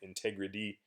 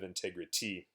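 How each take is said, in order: First: The T in the middle sounds like a D. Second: The T in the middle is a clear T. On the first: "some native speaking English speakers will say integrity" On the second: "instead of"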